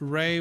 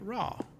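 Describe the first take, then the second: First: The name is said with an 'ay' vowel. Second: The name is said with an 'ah' vowel. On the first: This is the scholarly pronunciation. "Ray would be the established way of saying it" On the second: This is the older, popular pronunciation. "people say Ra because that's what people used to say"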